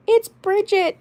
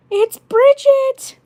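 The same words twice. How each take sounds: First: Put-on high squeaky farm girl accent on "It's Bridget". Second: Put-on very high, loud, drawn-out farm girl squeal; slow, squealed farm girl accent, very high; Bridget farm girl accent. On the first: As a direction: pitch way up into the farm girl doll voice. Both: Shown as a demonstration. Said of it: "the Bridget accent".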